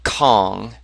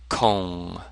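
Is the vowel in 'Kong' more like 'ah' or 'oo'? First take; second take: ah; oo. First: The vowel is an open 'ah' sound. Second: The vowel is a rounded 'oo' sound. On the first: The speaker calls it wrong. "So it's not Kong. We're used to saying like King Kong or Hong Kong" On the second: The speaker calls it right. "It's O, ong, Kong"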